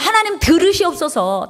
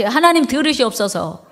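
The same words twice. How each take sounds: First: Prayerful plea. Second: Many voices echo the prayer together; congregation repeats. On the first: Shown as a demonstration. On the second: Real, not acted. Congregation echoes the pastor's prayer line in unison. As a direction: repeat the plea as a group. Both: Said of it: "다 같이".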